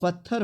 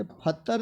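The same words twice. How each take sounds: First: पत्थर said as "patthar"; plain p, breathed th in पत्थर; correct pronunciation. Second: पत्थर said as "phattar"; higher पत्थर with misplaced aspiration; wrong pronunciation. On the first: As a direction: put the puff mid-word in पत्थर. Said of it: "पत्थर होता है". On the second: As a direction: puff of air on the p, none on the t of पत्थर. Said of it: "पत्थर नहीं होता है". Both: Shown as a demonstration.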